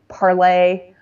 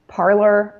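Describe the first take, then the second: First: The name is said with a French pronunciation. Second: The name is said with an American pronunciation. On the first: "pronounce it the French way" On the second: "I pronounce French words the American way"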